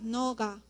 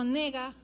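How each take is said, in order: First: The first vowel is an o sound. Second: The first vowel is an e sound. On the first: It is a rare way of saying you. "a veces dicen también noga, pero es casos raros" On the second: It could mean either you or I. "si yo digo nega, no sé si estoy diciendo tú o yo"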